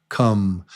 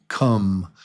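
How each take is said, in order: No difference in how they are said.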